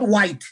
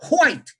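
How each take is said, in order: First: The word begins with a plain w sound. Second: The word begins with a breathy hw sound. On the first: The speaker calls it wrong. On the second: The speaker calls it right. "H-W-H-I-T-E. All words beginning with W-H, you must put a small H before it"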